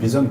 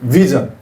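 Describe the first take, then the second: First: It starts with a b, both lips together. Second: It starts with a v, lower lip on teeth. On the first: The speaker calls it wrong. "그냥 비전 비전 그래요. 입술을 그냥 모아서" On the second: The speaker calls it right. "입술로 아랫입술을 깨물으면서 V라고 해야 돼요"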